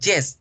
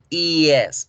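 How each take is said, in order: First: It begins with a hard Spanish-style y sound. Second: It begins with a soft i-like glide. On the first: The speaker calls it wrong. "Tendemos a pronunciarla con la Y de yuca en español, decimos yes" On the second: The speaker calls it right. "se pronuncia yes"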